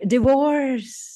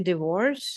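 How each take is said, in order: First: The word is said with strong feeling. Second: The word is said flat, without feeling. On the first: The speaker's feelings about it show. "you can actually tell what the person might be feeling" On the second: No feeling about it is shown. "it's a very neutral term"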